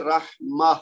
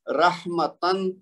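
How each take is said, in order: First: "رحمہ" ending in h instead of tan; stopping with ha. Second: Slow "رحمتن" with tan fully sounded; full unpaused form. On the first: Teacher shows how we stop on the word, ending in h. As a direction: stop on "رحمہ" with a breathed final h. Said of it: "جب ہم رکیں گے تو ہم کہیں گے". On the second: Teacher reads the example before stopping, full tan ending. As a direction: draw out "رحمتن", ending on a clear t-a-n. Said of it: "رحمتن کی بجائے جب ہم رکیں گے". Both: Shown as a demonstration.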